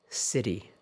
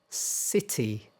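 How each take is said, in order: First: The t sounds like a d, American style. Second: The t is a clear t, British style.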